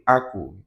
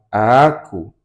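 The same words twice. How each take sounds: First: The vowel is short, with no dragging. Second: The vowel is dragged out long. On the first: The speaker calls it right. "tanpa ada yang nyeret" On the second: The speaker calls it wrong. "kita bukan ngomong"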